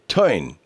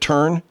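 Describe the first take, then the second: First: The R is dropped, giving an 'oi' vowel. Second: The R is kept, giving an 'er' vowel. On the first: "he would bend his R's to sound like it was from Brooklyn" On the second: "instead of turn"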